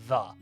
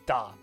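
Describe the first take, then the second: First: It starts with a soft th sound. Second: It starts with a hard d sound. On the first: "saying T H the" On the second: "He had to say da"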